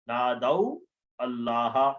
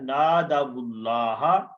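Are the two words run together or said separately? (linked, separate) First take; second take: separate; linked. First: The two words are said separately, final vowel silent. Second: The words run together with a linking vowel. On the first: This is the underlying form of the words. "असल में था नादऊ अल्लाह" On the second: This is how it is read when joined. "मिलाकर पढ़ने के लिए वाव के ऊपर हरकत आ जाएगी"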